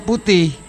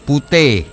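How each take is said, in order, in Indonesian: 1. Vokal terakhir terdengar seperti 'i' yang jelas. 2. Vokal terakhir terdengar seperti 'e'. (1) "kalau bahasa Indonesia putih" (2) "I diikuti konsonan berubah menjadi e"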